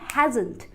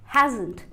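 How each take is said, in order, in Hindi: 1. यह एक contracted शब्द के रूप में बोला जाता है। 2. यह एक contracted शब्द के रूप में बोला जाता है।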